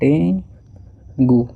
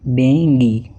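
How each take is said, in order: First: The word ends with an 'oo' sound. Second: The word ends with an 'ee' sound. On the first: The speaker calls it wrong. "ये डेंगू नहीं है" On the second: The speaker calls it right. "क्या है, डेंगी।"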